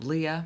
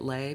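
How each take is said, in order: First: The name is two syllables, ee then uh. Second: The name is one syllable with an ay vowel. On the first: "I don't know where that one comes from" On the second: "I get Lay because that damn word slay"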